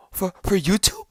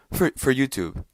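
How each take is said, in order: First: Higher, rising disbelief on YouTube; incredulous question. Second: Falling, flat answer on YouTube; resigned statement. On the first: Questioning the stunt's purpose, incredulous rising tone. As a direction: ask it in stunned disbelief. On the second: Answering his own question, resigned falling tone. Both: Retold or imitated.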